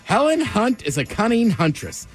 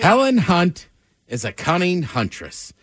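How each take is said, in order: First: It is said quickly. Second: It is said at a normal pace.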